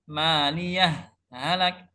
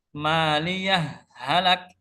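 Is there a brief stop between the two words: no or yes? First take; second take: yes; yes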